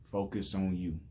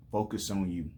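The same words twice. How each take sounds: The two takes are said the same way.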